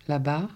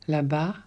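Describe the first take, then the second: No difference in how they are said.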